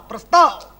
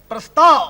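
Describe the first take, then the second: Both takes have the same delivery.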